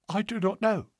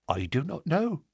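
First: Higher, soft frightened answer; scared and hushed, losing colour. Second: Said in the usual way. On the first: Acted. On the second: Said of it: "she answered".

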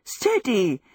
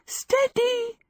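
First: Alarmed cry falling away; gasped warning. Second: Very high, giddy cry of alarm; high gasped warning. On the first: Sophie, holding a knife, is danced about, gasped warning. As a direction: gasp it out while being swung about. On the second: Sophie tries to hold the knife clear, high giddy gasp. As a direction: gasp it higher, thrown off balance. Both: A narrator's reading. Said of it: "she gasped".

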